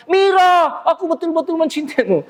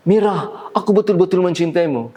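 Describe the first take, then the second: First: Seruan teatrikal bernada sangat tinggi; suara panggung berlebihan. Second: Said in the usual way. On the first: Shown as a demonstration. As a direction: nyatakan cinta seperti berdeklamasi di panggung. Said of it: "tidak wajar kalau di luar panggung". (gaya panggung yang tidak wajar, tinggi dan dilebih-lebihkan) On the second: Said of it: "Tidak didengar oleh penonton".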